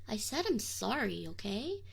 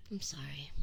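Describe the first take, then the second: First: Firmer, full-voiced "I said I'm sorry"; defensive apology. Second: Soft, voiceless "I'm sorry"; whispered apology. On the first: Demon repeating his apology to summoner, firmer. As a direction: insist on it, a little prickly. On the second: Acted. Demon apologizing to summoner in a whisper. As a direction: barely breathe the apology.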